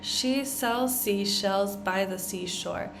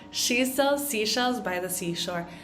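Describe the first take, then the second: First: It is said fairly slowly. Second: It is said quickly.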